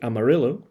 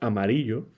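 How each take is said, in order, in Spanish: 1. Se dice con una pronunciación de estilo inglés. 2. Se dice con una pronunciación española. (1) "como se pronuncia aquí" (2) "que es la palabra española"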